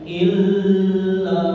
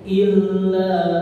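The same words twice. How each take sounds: First: The doubled consonant is held for a longer time. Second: The doubled consonant is joined briefly, not held. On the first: The speaker calls it wrong. "bukan illa" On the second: The speaker calls it right. "Cukup illa"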